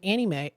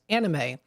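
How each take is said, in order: First: Anime is pronounced in an odd, imitated way. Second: Anime is pronounced in the standard way. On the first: The speaker calls it wrong. "I said anime because I used to watch a YouTuber who used to say it that way" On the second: The speaker calls it right. "Oh my goodness"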